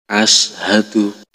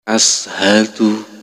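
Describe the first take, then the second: No difference in how they are said.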